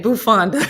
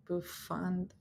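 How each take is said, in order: First: "bufanda" echoed with a laugh, mimicking how the viewer says it; imitating viewer's pronunciation. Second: "Bufanda" said softly and deliberately, correcting the viewer; careful correct pronunciation. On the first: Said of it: "The way you say it". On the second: Shown as a demonstration. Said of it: "There's no E in bufanda".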